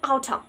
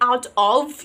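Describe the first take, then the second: First: The words are blended into one reduced form. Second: The words are said fully and separately. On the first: "you are using outer" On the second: "instead of saying out of"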